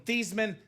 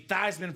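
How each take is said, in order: First: The name does not rhyme with Heisman. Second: The name rhymes with Heisman. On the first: This is the family's original pronunciation. "change her last name from" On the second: This is the changed pronunciation that matches the trophy. "so it could be Theismann for the Heisman"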